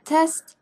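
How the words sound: The vowel is a short, flat 'e' sound.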